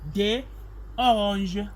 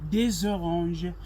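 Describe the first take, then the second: First: The two words are said separately, without linking. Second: A z sound links des into oranges. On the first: The speaker calls it wrong. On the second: The speaker calls it right.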